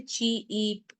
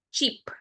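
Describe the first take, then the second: First: "cheap" split into two drawn-out parts, chee-eep; wrongly broken up. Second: Said in the usual way. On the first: Shown as a demonstration. Teacher showing children how not to say it, "cheap" broken into chee-eep. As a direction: stretch and break "cheap" in the middle. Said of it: "You can't say cheap". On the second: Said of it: "without breaking it".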